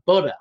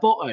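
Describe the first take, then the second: First: It is said in an American accent. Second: It is said in a British accent.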